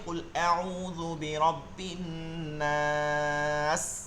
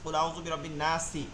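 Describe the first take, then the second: First: The vowel is drawn out long before stopping. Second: The vowel is short and runs into the next word. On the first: The reading stops at this word. "এটা যদি থামে ... তিন আলিফ টান হয়ে যাবে" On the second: The reading continues without a stop. "এই যে নাসি এক আলিফ টান হয়েছে"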